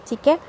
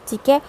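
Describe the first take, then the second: Both takes have the same delivery.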